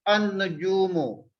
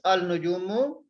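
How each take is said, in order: First: The L blends into a doubled N sound. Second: The article is said with a clear L. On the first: The speaker calls it right. "diucapkan an-nujumu" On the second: The speaker calls it wrong. "Tulis al-nujumu"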